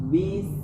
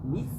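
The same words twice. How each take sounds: First: The syllable is eased from bi into is. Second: The syllable is said in one quick burst. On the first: The speaker calls it right. "Bis, bi, baru masuk ke is" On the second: The speaker calls it wrong. "tidak boleh langsung baca bis. Kelihatannya benar ya, tapi salah"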